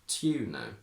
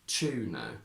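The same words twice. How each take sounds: First: It begins with separate t and y sounds. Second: It begins with a merged ch sound. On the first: This is the older traditional upper-class accent. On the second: This is the current everyday standard accent.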